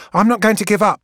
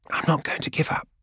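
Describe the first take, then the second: First: Higher and louder, with a stubborn stress on not; refuse, chin up, to abandon the task; defiant. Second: Breathy whispered repeat of I'm not going to give up; barely a whisper. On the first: Gang girl refusing to quit in front of Keeler, defiant and loud. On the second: Gang girl repeating her refusal to Keeler, barely whispered. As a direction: let the refusal shrink to a whisper near tears. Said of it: "but it's barely a whisper". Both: Acted.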